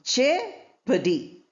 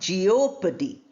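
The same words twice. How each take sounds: First: The O sound is silent in the word. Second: The O sound is pronounced in the word. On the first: The speaker calls it right. "O sound is not there" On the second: The speaker calls it wrong. "not jeopardy"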